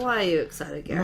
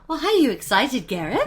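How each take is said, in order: First: It is said in a plain, flat way. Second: It is said in a lively, excited way.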